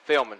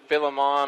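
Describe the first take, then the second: First: The name is said with two syllables. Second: The name is said with three syllables. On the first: The speaker calls it right. "let us know that it's Philman" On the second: The speaker calls it wrong. "We've been pronouncing it Philemon all year"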